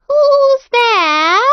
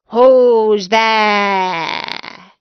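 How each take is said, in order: First: Put-on much higher, louder old grandmother; a sick grandmother calling toward the door, high. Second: Louder wolf pretending to be grandmother; the wolf in bed asking who knocks, louder; a big-voiced wolf, louder. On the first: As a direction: grandmother asking who knocks, high and loud. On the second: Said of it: "the big voice of the wolf".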